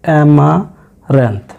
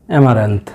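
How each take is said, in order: First: অ্যামারান্থ stretched slowly and clearly; slow model pronunciation. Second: Said in the usual way. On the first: Shown as a demonstration. (ধীরে অ্যামারান্থ উচ্চারণ) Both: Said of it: "এই আর উচ্চারণ হয় না".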